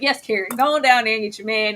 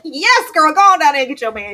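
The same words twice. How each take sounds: First: Said in the usual way. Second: Louder, fast hype cheer; loud, quick encouraging shout. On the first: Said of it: "It's like". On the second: Retold or imitated. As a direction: cheer her on loudly like a hype friend. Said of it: "I was like".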